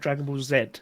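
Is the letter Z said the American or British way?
British. The letter Z is said the British way. The speaker calls it wrong. "not Dragon Ball Z"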